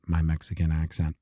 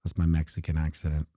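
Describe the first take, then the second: First: "accent" said carefully, correcting the slip; corrected word. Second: "accident" said where accent was meant, quickly; slip of the tongue. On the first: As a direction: fix the word and say "accent" clearly. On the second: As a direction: blurt "accident" by mistake, then catch it. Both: Real, not acted. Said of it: "uh, accident".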